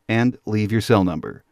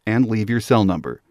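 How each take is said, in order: Both takes have the same delivery.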